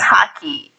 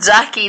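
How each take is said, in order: First: The name begins with an H sound. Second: The name begins with a J sound. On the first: "J is pronounced as H" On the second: "If you're called Jackie"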